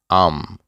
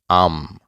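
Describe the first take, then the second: No difference in how they are said.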